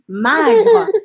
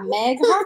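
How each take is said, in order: First: The first vowel is an open 'ah' sound. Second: The first vowel is an 'eh' sound. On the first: The speaker calls it wrong. "sinon je vais prononcer magre" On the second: The speaker calls it right. "de bien mettre la lettre I"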